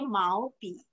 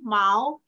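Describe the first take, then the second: First: The tone on bi stays low without rising. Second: The tone on bi dips and rises fully. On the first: "baca yang setengah" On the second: "baca penuh"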